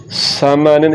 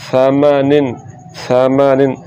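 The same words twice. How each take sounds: First: समानिन with a hissing s at the start; wrong whistled S. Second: Hiss-free first sound in समानिन; no whistle. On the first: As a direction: whistle the first sound of समानिन. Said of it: "ये गलत है". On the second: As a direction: say समानिन as "thamanin". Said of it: "समानिन नहीं पढ़ना". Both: Shown as a demonstration.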